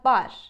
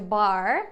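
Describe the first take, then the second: First: It has a lighter Turkish-style R. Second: It has a strong American-style R. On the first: The speaker calls it right. "but bar. In Turkish, we would pronounce it like that" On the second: The speaker calls it wrong. "we don't say bar with the American accent"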